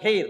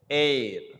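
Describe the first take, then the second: First: The word begins with a sounded h. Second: The word begins with a silent h. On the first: The speaker calls it wrong. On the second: The speaker calls it right. "as if the H is silent"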